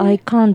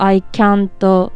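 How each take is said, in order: First: It is said in a British accent. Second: It is said in an American accent.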